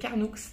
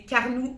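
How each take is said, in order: First: The final X is pronounced. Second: The final X is silent. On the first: The speaker calls it right. "il faut prononcer le X, c'est Carnoux" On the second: The speaker calls it wrong. "au début je disais Carnoux en Provence. Mais non"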